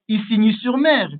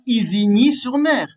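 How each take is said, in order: First: The first s in Isigny sounds like an s. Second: The first s in Isigny sounds like a z. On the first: The speaker calls it right. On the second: The speaker calls it wrong.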